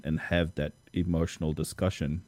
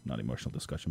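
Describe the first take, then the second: First: Said in the usual way. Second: Quiet self-correction. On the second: Real, not acted. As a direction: correct "emotional" lower and softer, as an aside.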